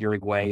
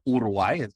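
First: The name is said with an American pronunciation. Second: The name is said with a Spanish pronunciation. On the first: This is how English speakers read the name. "is how many Americans would read it" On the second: This is how the country's own people say it. "I'm told to pronounce it"

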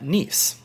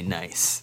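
First: The vowel sounds like the one in 'geese'. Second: The vowel sounds like the one in 'rice'. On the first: It is the proper local name of the city. "I had to say Nice first to show that I knew the pronunciation" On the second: It is a playful reading as the ordinary word. "I wanted to say Nice"

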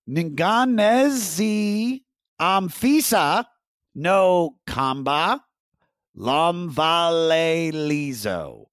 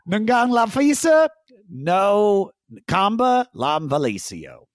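First: The name is said slowly. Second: The name is said fast.

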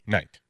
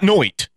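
First: The vowel sounds like 'eye'. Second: The vowel sounds like 'oy'. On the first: The speaker calls it right. "but it's night" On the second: The speaker calls it wrong. "not noit"

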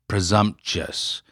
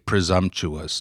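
First: The ending is pronounced shus. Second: The ending is pronounced choo-us. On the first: The speaker calls it wrong. "not presumptuous? T-I-O-U-S" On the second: The speaker calls it right. "Why does it really matter that you say presumptuous"

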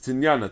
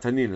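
First: The word is said with an added y sound. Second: The word is said with plain n sounds. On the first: The speaker calls it right. "It's tinyana" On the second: The speaker calls it wrong. "That it's not tanina"

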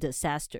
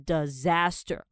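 First: The first s sounds like a hissing s. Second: The first s sounds like a buzzing z. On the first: The speaker calls it wrong. "不要念成disaster" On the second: The speaker calls it right. "它第一个s 其实发音是z 的音"

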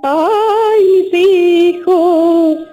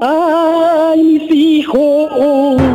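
First: It is a high, siren-like wail. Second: It is a deep, man-like wail.

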